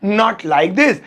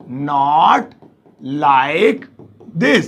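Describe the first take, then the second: First: Said in the usual way. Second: Words set apart, lower and slow. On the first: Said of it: "ये बोलेंगे". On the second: Shown as a demonstration. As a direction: dictate each word. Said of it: "उसे बोलेंगे ऐसे नहीं". (एक-एक शब्द धीरे-धीरे)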